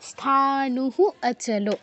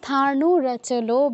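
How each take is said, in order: First: The first word ends in an echoed h sound. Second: An r sound joins the two words together. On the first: The two words are kept separate. The speaker calls it wrong. "সন্ধি বিচ্ছেদ করে বলতে চাও সেই ক্ষেত্রে বলতে হবে স্থানুহু, ... কিন্তু ওইটা সুন্দর শোনাবে না" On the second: The two words are joined together. The speaker calls it right. "এই জন্য আমরা স্থানু রচলো বলবো"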